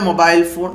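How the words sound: It is said with a British English accent. "ബ്രിട്ടീഷുകാരെ mobile phone എന്നാണ് പറയുന്നത്"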